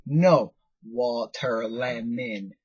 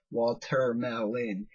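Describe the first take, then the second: First: Slow "water lemon." with a cheeky stretch; mock kid's wrong word. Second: Slow "Watermelon." with every syllable clear; correct watermelon. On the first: The boy teases his teacher, saying "water lemon." slowly. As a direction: drag out "water lemon." like a stubborn kid. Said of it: "And he's like". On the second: Retold or imitated. Teacher spells out the right word to the boy, saying "Watermelon." slowly. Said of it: "do you mean watermelons".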